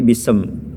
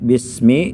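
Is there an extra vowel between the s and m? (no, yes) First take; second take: yes; no. First: An extra vowel sounds between the s and m. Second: The s goes straight into the m. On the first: The speaker calls it wrong. "Karena dia terburu-buru membaca mim kasrah" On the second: The speaker calls it right. "bismi jadi bisem"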